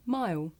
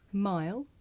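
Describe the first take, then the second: First: "mile" ending in a w-like vowel, like "my-oo", falling; final L dropped. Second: "Mile" with the L fully sounded, ending on a rise; final L sounded. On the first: Teacher showing the L sound disappear, "mile" without L. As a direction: say "mile" with no tongue-tip L. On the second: Teacher contrasting two ways to say it, "Mile" with L sounded. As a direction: finish "Mile" with the tongue on the L. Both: Shown as a demonstration. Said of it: "make the L sound disappear".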